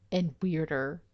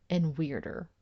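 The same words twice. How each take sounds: The two takes are said the same way.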